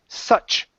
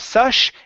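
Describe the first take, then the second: First: The word ends with a strong ch sound. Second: The word ends with a soft sh sound. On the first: The speaker calls it right. "it's ch. Nice and strong" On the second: The speaker calls it wrong. "now here you're saying sush. Instead of sush"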